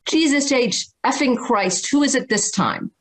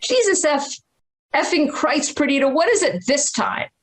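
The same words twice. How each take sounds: First: Cantankerous father. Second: Much higher, lightly voiced psychic passing on the curse; psychic quoting father. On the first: Retold or imitated. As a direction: imitate a cantankerous ER doctor answering the phone. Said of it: "my father would say". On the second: Psychic relaying the dead father's words to the mother, in a high voice. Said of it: "And she said".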